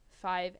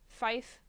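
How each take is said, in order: First: It ends with a v sound. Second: It ends with an f sound. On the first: This is the everyday way to say the number. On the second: This is the radio-procedure way to say the number.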